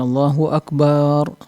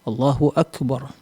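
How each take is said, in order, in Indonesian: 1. Vokal terakhir pada Akbar dibaca panjang. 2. Vokal terakhir pada Akbar dibaca pendek.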